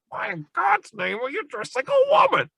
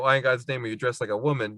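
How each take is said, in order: First: It is said imitating the character Lundy. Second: It is said in his normal voice.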